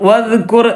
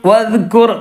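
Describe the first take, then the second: No difference in how they are said.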